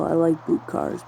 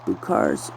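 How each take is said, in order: First: Said in the usual way. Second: Boot cars dropped much lower, deep and drawn. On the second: Real, not acted. Admiring the boot cars, repeats it in a deep voice.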